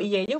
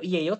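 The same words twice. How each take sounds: First: The pitch rises at the end. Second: The pitch falls at the end. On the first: It is asked as a question. "bisa buat tanda tanya" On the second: It is a plain statement.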